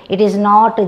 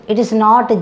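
The two takes are said the same way.

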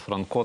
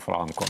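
First: The stress is on the second syllable. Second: The stress is on the first syllable. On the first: This is how most people usually say it now. "звикліше тепер казати Франко" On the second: This is how people in his home village say it. "саме наголос на перший склад"

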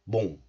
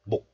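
First: The syllable ends in a nasal ng sound. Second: The syllable ends in a k sound. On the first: "So this 목 becomes 몽" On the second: "This letter is pronounced as 목 in isolation"

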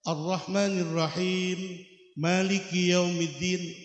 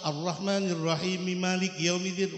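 First: There is a pause after Rahim. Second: Rahim runs straight into Maliki.

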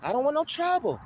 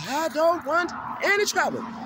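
First: It is said in his normal voice. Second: It is said in a put-on martial-arts-master voice.

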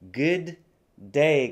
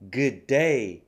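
First: Both d sounds are said separately. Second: The two d sounds merge into one.

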